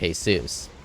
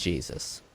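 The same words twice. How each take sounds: First: The name is said in a Spanish way. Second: The name is said in an American way.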